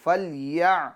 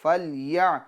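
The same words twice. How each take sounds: The two takes are said the same way.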